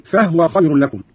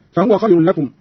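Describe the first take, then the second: First: "فهو" as fahwa; silent-vowel ha. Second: Said in the usual way. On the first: Shown as a demonstration. Teacher showing Qalun's reading, "فهو" said fahwa. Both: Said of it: "قرأ قالون بإسكان الهاء".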